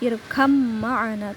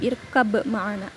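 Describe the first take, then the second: First: The first word ends in an m sound. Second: The first word ends in a b sound. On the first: The speaker calls it right. "Dilebur, diidghamkan masuk ke mim" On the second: The speaker calls it wrong. "tidak irkab ma'ana"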